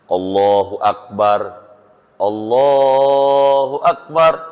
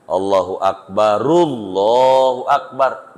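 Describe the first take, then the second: First: The first Akbar ends without a vowel. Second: The first Akbar ends with a u vowel. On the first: This earns the greatest reward. "roknya mati dua-duanya" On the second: This earns less reward. "Rok pertama hidup, doma"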